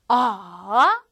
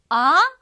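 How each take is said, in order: First: The pitch goes low, then rises. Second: The pitch rises like a question. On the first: "삼성은 낮았다가 올라가는 거죠" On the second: "이렇게 물어볼 때 네? 할 때처럼"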